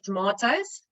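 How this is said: It is said with a South African accent. "like we do in South Africa"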